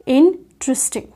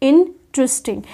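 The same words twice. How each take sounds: The two takes are said the same way.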